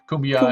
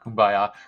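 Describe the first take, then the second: First: The name sounds like the word cumbia. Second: The name sounds like the word kumbaya. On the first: The speaker calls it right. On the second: The speaker calls it wrong. "Not Kumbaya"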